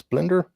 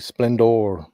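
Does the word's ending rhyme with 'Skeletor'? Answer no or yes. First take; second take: no; yes. First: The ending does not rhyme with Skeletor. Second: The ending rhymes with Skeletor. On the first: "Do you guys pronounce it Splendor" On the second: "do you say Splendor like Skeletor?"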